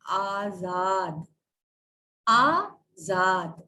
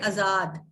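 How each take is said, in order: First: "आजाद" drawn out slowly as "aa-zaad"; long opening AA in "आजाद", syllable by syllable; correct pronunciation. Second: "आजाद" with a short, clipped first vowel "a"; the wrong, short-A "आजाद"; common mispronunciation. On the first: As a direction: teach "आजाद" very slowly, both vowels long. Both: Shown as a demonstration. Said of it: "आजाद नहीं होता है".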